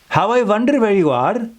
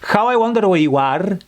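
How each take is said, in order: First: It is said in an Indian accent. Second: It is said in a Spanish accent. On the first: "would be an Indian accent"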